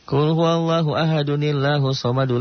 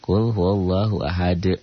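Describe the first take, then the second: First: The verses run together without a pause. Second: There is a stop after the first verse. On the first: "Itu kalau diwasol, kalau disambung" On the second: "Kalau enggak diwasol mah biasa aja"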